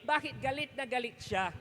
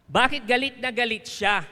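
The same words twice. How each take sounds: First: Said in the usual way. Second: Asking again, much louder; louder repeat. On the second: Shown as a demonstration. Preacher repeating the question to the congregation, louder. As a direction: push the question out to the crowd. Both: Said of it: "repeat louder".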